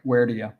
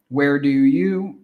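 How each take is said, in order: First: The words are reduced and run together. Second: Each word is said fully and separately.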